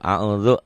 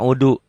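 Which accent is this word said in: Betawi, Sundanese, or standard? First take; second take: standard; Sundanese. First: It is said with standard Arabic pronunciation. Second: It is said with a Sundanese accent. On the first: The speaker calls it right. "kul a'udzu jangan a'uju" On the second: The speaker calls it wrong. "Kalau orang Sunda a'udu"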